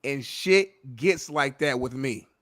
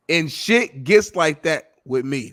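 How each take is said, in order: First: Slow, deliberate quoting of the line; slow deadpan quote. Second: Slow, savoring repeat of the quote; slow deadpan quote. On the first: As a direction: savor every word of the quote. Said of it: "and I quote". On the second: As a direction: lean into each word. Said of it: "repeats quote". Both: Retold or imitated.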